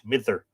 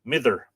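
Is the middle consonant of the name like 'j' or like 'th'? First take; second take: th; th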